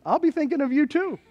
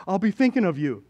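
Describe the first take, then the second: First: High-pitched, playful comeback; mock sweet reply. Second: Understated quoted remark, near usual pitch; lightly voiced churchgoer exchange. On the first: Churchgoer answering the boating realtor, high mock sweet reply. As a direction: lift the reply high, teasingly. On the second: Realtor to churchgoing friend, lightly acted easy remark. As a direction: toss off the realtor's line lightly.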